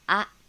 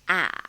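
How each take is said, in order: First: The syllable is said in the third tone. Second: The same.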